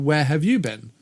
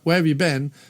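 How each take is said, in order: First: It sounds genuinely curious and interested. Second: It sounds impatient and exasperated. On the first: It asks which places the listener has traveled to. "Where have you traveled to in the world?" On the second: The listener is behind and should catch up. "meaning like come on, catch up"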